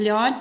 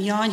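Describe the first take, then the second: First: The word begins with an L sound. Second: The word begins with a Y sound. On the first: "hanem lány" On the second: "nem jány"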